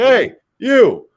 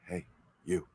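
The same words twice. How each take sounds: First: It is called out loudly, projected far. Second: It is said softly, as if very close. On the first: The person addressed is far away down the hallway. "are you throwing a line because someone's down the hallway" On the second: The person addressed is right up close. "are they right up close"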